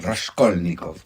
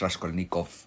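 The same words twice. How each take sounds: First: The stress is on the second syllable. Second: The stress is not on the second syllable. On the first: The speaker calls it right. "es Raskolnikov ... esdrújulas" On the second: The speaker calls it wrong. "no es Raskolnikov"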